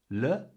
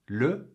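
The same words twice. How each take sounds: First: The vowel is said with open lips. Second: The vowel is said with rounded, forward lips. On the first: The speaker calls it wrong. "with open lips" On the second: The speaker calls it right. "with lips pushed further forward and more closed"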